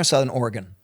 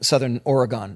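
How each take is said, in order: First: It is said the way locals say it. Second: It is said with a Canadian pronunciation.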